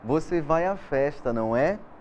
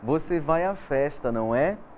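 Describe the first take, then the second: First: The tag is said in full, two words. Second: The tag is said in full, two words.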